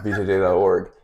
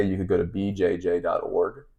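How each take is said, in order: First: B J J dot org said louder and firmer; stress on the correct name. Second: Said in the usual way. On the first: Shown as a demonstration. Correcting the listener, B J J dot org said firmly. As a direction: lean on B J J dot org, the right site. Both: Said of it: "Not B J dot com".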